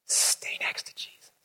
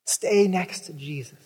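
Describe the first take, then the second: First: Hushed, unvoiced whisper. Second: Said in the usual way. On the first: Shown as a demonstration. Preacher urging the congregation closely, whispered. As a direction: breathe it like a secret.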